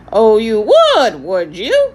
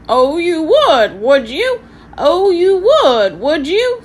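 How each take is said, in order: First: Loud, slow parrot voice, sarcasm gone, coaxing; ingratiating parrot. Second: High, loud, slow squawking parrot sneer; mock them like a cheeky parrot; sarcastic parrot. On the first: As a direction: sweet-talk them like a fawning parrot. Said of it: "his tone has lost its sarcasm and was quite ingratiating". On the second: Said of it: "said Halfred sarcastically". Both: A narrator's reading.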